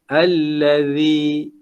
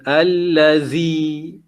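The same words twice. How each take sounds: First: The middle consonant is made with tongue between teeth. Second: The middle consonant sounds like a buzzing z. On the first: The speaker calls it right. "kita punya lidah keluar ah, di hadapan daripada gigi" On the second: The speaker calls it wrong. "bukan allazi"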